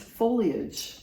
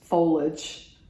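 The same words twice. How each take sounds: First: The word is said with three syllables, including 'ee'. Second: The word is said with two syllables, no 'ee' sound. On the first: The speaker calls it right. "there's a whole eye in there" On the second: The speaker calls it wrong. "as they say in the Pacific Northwest"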